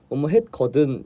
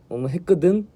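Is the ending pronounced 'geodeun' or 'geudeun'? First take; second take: geodeun; geudeun. First: The ending is said with a plain 'geo' vowel. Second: The ending is said with a 'geu' vowel.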